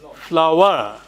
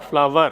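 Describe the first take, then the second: First: The middle sound uses rounded lips, teeth apart. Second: The middle sound uses upper teeth on lower lip. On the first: The speaker calls it right. "So it is flower" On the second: The speaker calls it wrong. "and not flower"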